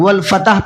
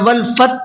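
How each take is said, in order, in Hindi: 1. t और h के बीच एक स्वर जुड़ता है। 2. आख़िरी ह की आवाज़ पूरी तरह गिरा दी जाती है। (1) "आमतौर पर गलती करते हैं लोग" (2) "या वल फत पढ़ते हैं"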